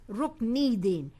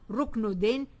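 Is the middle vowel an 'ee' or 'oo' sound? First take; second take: ee; oo. First: The middle vowel is an 'ee' sound. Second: The middle vowel is an 'oo' sound. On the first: The speaker calls it right. "it's Ruknidin" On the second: The speaker calls it wrong. "It's not Ruknuddin"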